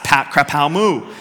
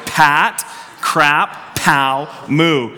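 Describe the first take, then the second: First: The phrase is said quickly. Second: The phrase is said at a normal pace.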